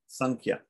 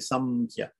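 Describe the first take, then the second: First: The nasal before the k sounds like ng. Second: The nasal before the k sounds like m. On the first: "But normally it's pronounced Sankhya" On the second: "if we want to pronounce it like an M, we can just say Samkhya"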